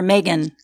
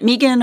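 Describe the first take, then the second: First: Megan said as MAY-gan; MAY-gan pronunciation. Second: Megan said as MEE-gan; MEE-gan pronunciation. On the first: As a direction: say Megan with an "ay" first vowel. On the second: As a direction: say Megan with a long "ee" first vowel. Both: Shown as a demonstration. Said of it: "is it Megan or Megan?".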